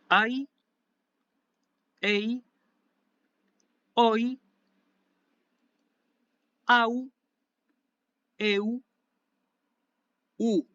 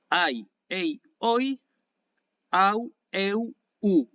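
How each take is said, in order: First: The diphthongs are said slowly, one by one. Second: The diphthongs are said quickly in a row. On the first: "voy a decirlo uno por uno" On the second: "ahora lo voy a decir más rápido"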